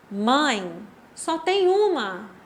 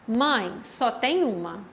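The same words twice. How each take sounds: First: There is a pause after the first word. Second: It is said without a pause after the first word.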